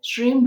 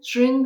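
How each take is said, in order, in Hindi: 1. यह शब्द बंद m ध्वनि पर खत्म होता है। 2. यह शब्द नासिक ng ध्वनि पर खत्म होता है। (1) "अगर आप श्री म बोलते हैं" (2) "मैं जो बोल रही हूँ"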